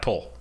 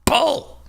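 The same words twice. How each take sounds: First: Said in the usual way. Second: High, loud shouted command; signal shout. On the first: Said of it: "when I say that". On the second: Shown as a demonstration. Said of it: "my signal is gonna be".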